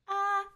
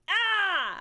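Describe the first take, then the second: First: It is said quietly, at low volume. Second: It is said loudly, as a yell.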